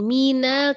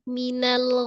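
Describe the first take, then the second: First: A vowel in the word is drawn out long. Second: The vowels in the word are kept short. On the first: The speaker calls it wrong. "Jangan minal" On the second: The speaker calls it right. "Pendek ya"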